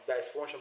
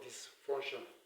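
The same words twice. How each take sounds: First: The first vowel is a long i sound. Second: The first vowel is a short e sound. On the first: The speaker calls it wrong. "I normally pronounce this one as dysfunction before" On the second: The speaker calls it right. "but it's actually pronounced as what? Dysfunction"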